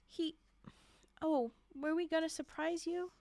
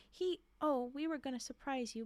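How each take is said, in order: First: Were we gonna surprise you, read as a question rising at the end; a stumbling questioning misreading. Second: We were gonna surprise you, said as a statement with a fall and were stressed; a quicker corrected reading ending in a fall. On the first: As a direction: mistakenly ask it, lifting on gonna. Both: Shown as a demonstration. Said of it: "Oh, sorry".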